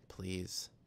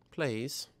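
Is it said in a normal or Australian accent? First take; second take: normal; Australian. First: It is said in her normal accent. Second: It is said in an Australian accent.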